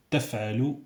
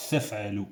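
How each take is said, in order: First: "تفعل" with a clean t; "تفعل" said with a plain t; correct t. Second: "تفعل" with a th; "تفعل" lisped; wrong th. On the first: Teacher models the right "تفعل". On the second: Teacher shows the mistaken "تفعل". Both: Shown as a demonstration. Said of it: "c'est pas".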